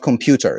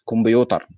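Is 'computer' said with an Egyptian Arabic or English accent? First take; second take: English; Egyptian Arabic. First: The word is said with English pronunciation. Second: The word is said with Egyptian Arabic pronunciation. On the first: The speaker calls it wrong. "It's not computer" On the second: The speaker calls it right. "It's كمبيوتر. ... you have to destroy the pronunciation"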